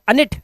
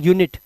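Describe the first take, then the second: First: The word begins with a short 'uh' sound. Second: The word begins with a 'yoo' sound. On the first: The speaker calls it wrong. "अनिट नहीं" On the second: The speaker calls it right. "इसलिए पढ़ते हैं इसे यूनिट"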